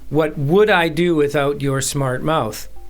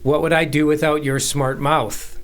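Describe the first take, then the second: First: The stress is on "would". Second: The stress is on "mouth".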